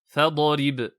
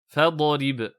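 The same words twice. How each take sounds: No difference in how they are said.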